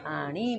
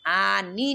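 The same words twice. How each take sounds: First: Lower, softer आणी with tongue curled back; retroflex ण in आणी. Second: आनी with tongue touching the teeth; plain dental "n" in आनी. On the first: Teacher gives students the right ending, retroflex आणी. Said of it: "आणी बोलना है". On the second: Teacher repeats the ending to avoid, dental आनी. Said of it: "आनी नहीं बोलना है". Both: Shown as a demonstration.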